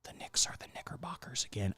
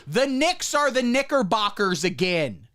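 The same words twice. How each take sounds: First: Unvoiced whisper, much softer. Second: Said in the usual way. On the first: Shown as a demonstration. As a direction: whisper it so no one catches the word. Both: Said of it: "I'm not gonna say that word again".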